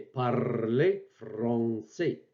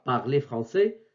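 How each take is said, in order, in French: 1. Le r est roulé avec le bout de la langue. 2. Le r se fait au fond de la gorge. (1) "c'est plutôt le R roulé de l'arabe. J'exagère un peu" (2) "ce n'est pas le R grassé du français"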